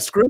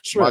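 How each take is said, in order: First: The word begins with an 'sk' sound. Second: The word begins with an 'sh' sound. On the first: The speaker calls it wrong. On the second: The speaker calls it right.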